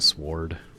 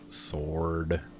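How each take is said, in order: First: The word is said the way it is spelled. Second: The word is said in its usual form. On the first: "I say sword. I think that one's a weird one" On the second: "instead of sword"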